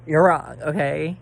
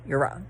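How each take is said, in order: First: You're wrong, blurted out loud; loud scolding; loud insistence. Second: Said in the usual way. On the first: Real, not acted. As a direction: hit it loud and firm. Ranting at viewers.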